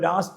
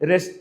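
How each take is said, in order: First: The first vowel is long. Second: The first vowel is short. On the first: This is the proper standard form. "രാസ്ത എന്നാണ് സാധനം" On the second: This is the casual everyday form. "പക്ഷെ പല രസ്ത എന്നൊക്കെ പറയുള്ളൂ"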